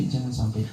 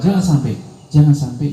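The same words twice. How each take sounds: First: Soft, falling jangan sampai; quiet close. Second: Louder, insistent jangan sampai; emphatic warning. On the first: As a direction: let the last warning drop to a hush. (peringatan lirih menurun) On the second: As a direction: press the warning hard. (peringatan keras dan tegas) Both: Real, not acted. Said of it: "repeated warning".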